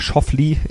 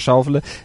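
First: The name is said with English pronunciation. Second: The name is said with German pronunciation. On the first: The speaker calls it right. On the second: The speaker calls it wrong.

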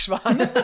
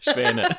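First: The stressed vowel is an open 'ah' sound. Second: The stressed vowel is an 'eh' sound. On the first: The speaker calls it wrong. "nicht Schwane" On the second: The speaker calls it right.

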